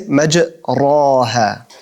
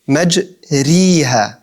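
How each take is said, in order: First: The vowel after r sounds like a. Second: The vowel after r sounds like i. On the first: "if I'm to say an alif" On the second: "if I was to say a ya"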